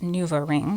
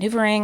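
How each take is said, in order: First: The word is said slowly and clearly. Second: The word is said quickly and run together. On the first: The speaker calls it right. "that's what I meant" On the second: The speaker calls it wrong. "I said that fast"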